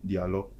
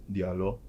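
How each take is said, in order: Both takes have the same delivery.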